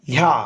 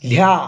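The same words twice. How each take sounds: The two takes are said the same way.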